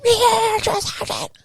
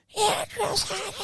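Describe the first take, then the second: First: Very high, strained mock yell; recruit yelling back. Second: Very high, slow, thin answer, softer than usual; squeaky recruit reply. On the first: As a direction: squeal it out to prove you can yell. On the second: Retold or imitated. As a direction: answer the sergeant in a small strained squeak. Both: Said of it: "did I not yell loud enough".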